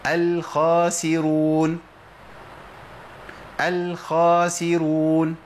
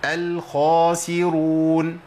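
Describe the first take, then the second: First: الخاسرون with the خ made thin, a light kha before a bright open a, drawn out slowly; thin wrong kha. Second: الخاسرون with a strong emphatic خ, rounded lips; heavy emphatic kha. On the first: Tajweed teacher showing students the common mistake, thin kha. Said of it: "بنسمع كتير من الناس يقول". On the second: Tajweed teacher giving students the correct heavy kha. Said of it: "لازم أقولها إزاي؟". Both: Shown as a demonstration.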